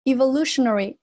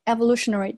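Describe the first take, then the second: First: Evolutionary starting with "ee"; long E opening. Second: Evolutionary starting with "eh"; short E opening. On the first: Teacher shows first reading, evolutionary said "ee-volutionary". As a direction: open evolutionary on a long ee, as in eve. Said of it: "前面这个有两种读法". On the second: Teacher shows other reading, evolutionary said "eh-volutionary". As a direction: open evolutionary on a short e, as in ever. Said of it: "也可以读成evolutionary". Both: Shown as a demonstration.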